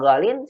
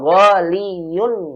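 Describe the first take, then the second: First: The ending is shortened to "-in" with no y. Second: The ending is said in full as "-iyun". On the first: This is the form actually used. The speaker calls it right. "domahnya apa ya-nya ini dibuang maka jadi golin" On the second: This full form is hard to pronounce. The speaker calls it wrong.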